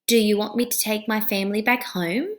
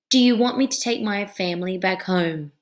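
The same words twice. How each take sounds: First: The voice rises at the end. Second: The voice falls at the end. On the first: The speaker calls it right. "What happened to my voice? It went up" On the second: The speaker calls it wrong. "if my voice is going low"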